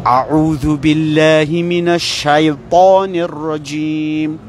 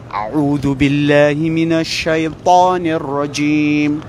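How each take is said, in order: No difference in how they are said.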